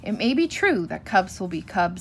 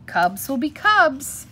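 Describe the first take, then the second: First: Said in the usual way. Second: Slow, higher-pitched verbal shrug; shrugging indulgence. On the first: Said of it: "said Mama". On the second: A narrator's reading. Papa bear excusing the cubs to Mama, shrugging it off. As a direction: stretch it out like an easygoing excuse. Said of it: "looked at Mama and shrugged".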